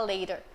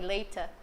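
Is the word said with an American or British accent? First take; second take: American; British. First: It is said with an American accent. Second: It is said with a British accent. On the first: "que você aprende no inglês americano a falar later" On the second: "do jeito que eu aprendi com o inglês britânico"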